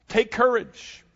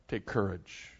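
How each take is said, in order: First: Ringing call. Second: Hushed. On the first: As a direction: call take courage across the water. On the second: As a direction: take courage much softer and lower, hushed. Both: Acted.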